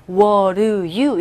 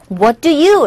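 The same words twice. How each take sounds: First: "What do you" run together as "wuh-ruh-you"; native linked sound. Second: "What do you" with T and D sounded; careful pronunciation. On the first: Teacher showing how natives sound, linked "What do you". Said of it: "이렇게 들리죠". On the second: Teacher showing the careful alternative, "What do you" fully articulated. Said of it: "라고도 할 수 있죠". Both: Shown as a demonstration.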